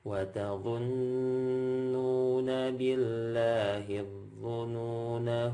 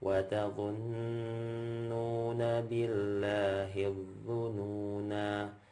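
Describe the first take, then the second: First: The final vowel is short and runs on. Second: The final vowel is held long before stopping. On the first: The reading continues into the next verse. "Kalau mau disambung, diwasalkan ke, ke ayat berikutnya, maka dia menjadi satu harokat" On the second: The reading stops at the end of the verse. "ketika waqaf, ketika berhenti, maka dia tetap dua harokat"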